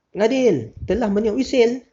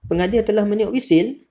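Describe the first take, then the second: First: It is said forcefully like an exclamation. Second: It is said with a questioning rising tune. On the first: It expresses strong feeling. "tu pun salah juga. Tu ayat seruan" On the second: It asks whether something happened. "Tu ayat tanya"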